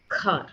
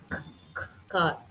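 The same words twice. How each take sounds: First: Said in the usual way. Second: The k sound "k, k" said separately before "car.", the first k's breathed; stuttered k before car; broken-up car. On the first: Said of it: "They just want you to say". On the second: Shown as a demonstration. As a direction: split "car." into "k, k, car.". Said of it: "don't like to break a monosyllable sound".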